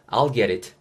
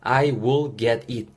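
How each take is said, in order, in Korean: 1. 단어들이 붙어서 줄인 I'll이 돼요. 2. I will은 각각 풀어서 따로 말해요.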